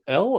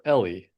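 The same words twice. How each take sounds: First: Elle as one syllable. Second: Ellie with an ee ending; two-syllable Ellie. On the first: Co-host asks how the actress's name is said, Elle as one syllable. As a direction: say Elle like the letter L. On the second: Co-host offers the other reading of the name, Ellie in two syllables. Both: Shown as a demonstration. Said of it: "Is it Elle or Ellie?".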